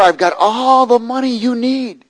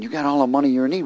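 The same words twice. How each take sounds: First: Imitating a slow, high, loud holler; retold yell. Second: Quick aside with a questioning rise; retold doubtful thought. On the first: Man yelling his offer to the preacher, imitated yell. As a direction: holler it out, stretching the words. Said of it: "he starts yelling to me". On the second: Preacher privately doubting the stranger's offer, doubtful thought. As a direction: echo it to yourself as a question. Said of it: "I'm thinking".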